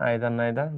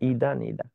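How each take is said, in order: First: The words begin with an 'eye' vowel sound. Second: The words begin with an 'ee' vowel sound. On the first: "বলেন আইদার নাইদার, যা বলেন" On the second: "উচ্চারণ হবে ইদা নিদা"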